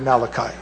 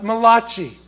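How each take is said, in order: First: The name is said with a plain English pronunciation. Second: The name is said with an Italian-sounding pronunciation. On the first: The speaker calls it right. "It's really Malachi" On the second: The speaker calls it wrong. "The Italian prophet"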